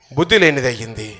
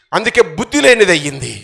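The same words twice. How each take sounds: First: Soft echo. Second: Said in the usual way. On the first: Acted. Preacher echoing his point to the congregation, lower and softer. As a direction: lower and softer, almost to himself.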